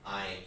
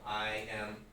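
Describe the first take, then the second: First: The words I am are contracted to one syllable. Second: The words I am are said in full.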